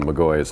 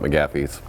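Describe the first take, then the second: First: The name is said without an f sound. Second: The name is said with an f sound. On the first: The speaker calls it right. "the phone McGaughy's" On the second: The speaker calls it wrong. "not McGaffey's"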